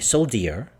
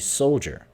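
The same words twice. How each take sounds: First: The middle consonant is not a J sound. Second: The middle consonant is a J sound. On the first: The speaker calls it wrong. "We don't say soldier" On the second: The speaker calls it right. "we say soldier. So the this becomes a J sound"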